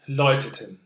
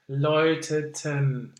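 First: The last syllable is short and unstressed. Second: The last syllable is drawn out and longer. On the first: This is the usual spoken form. "usually it's läuteten" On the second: This is how the music sets it. "in the music, we have läuteten. So the last syllable is a bit too long"

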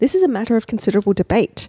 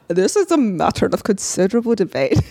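First: It is said in a plain American accent. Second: It is said in a Scottish accent.

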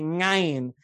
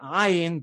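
First: The word begins with a nasal ng sound. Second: The word begins with a plain vowel sound. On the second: The customary pronunciation of the guttural letter. "I had to learn not to say ayin"

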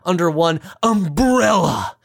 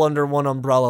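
First: It is said in a put-on character voice. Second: It is said in the speaker's normal voice.

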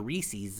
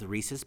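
First: It is said in an East Coast pronunciation. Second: It is said in the speaker's usual pronunciation. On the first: The speaker calls it wrong. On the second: The speaker calls it right.

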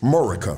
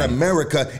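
First: The word is said without its first syllable. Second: The word is said with all its syllables. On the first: "it's Murica" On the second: "it's not America"

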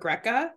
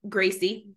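First: The name does not end in an ee sound. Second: The name ends in an ee sound. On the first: The speaker calls it wrong. "I was calling it Greca or Greca. Nope" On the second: The speaker calls it right. "It doesn't even end with a letter that makes an E sound"

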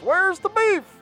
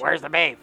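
First: It is said in a high voice. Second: It is said in a lower voice.

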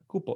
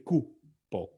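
First: The word is said smoothly with no pause. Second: The word has a pause between its syllables. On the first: It is spelled with one P. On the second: It is spelled with two P's.

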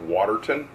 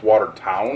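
First: The last syllable is a reduced 'ton'. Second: The last syllable is a full 'town'. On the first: The speaker calls it wrong. "It's not Waterton" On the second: The speaker calls it right. "It's Watertown"

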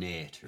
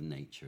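First: The middle consonant sounds like a plain 't'. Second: The middle consonant sounds like 'ch'. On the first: This is the original Shakespearean pronunciation. "And nature" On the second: This is the modern pronunciation. "instead of nature"

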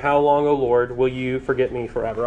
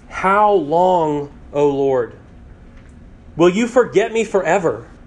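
First: It is read flatly, without real feeling. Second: It is read with strong, felt emotion.

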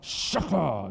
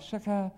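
First: It is said forcefully, with attitude. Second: It is said plainly, without attitude.

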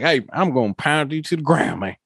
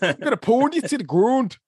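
First: It is said in a rural country accent. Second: It is said in a Minnesota accent.

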